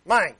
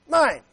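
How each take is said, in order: First: Said in the usual way. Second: Put-on a toddler claiming a toy, a bit higher; childish possessive mine. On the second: Shown as a demonstration. Preacher shows the congregation how a child says, childish mine. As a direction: say it like a small child grabbing something. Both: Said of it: "taught your kids to say the word".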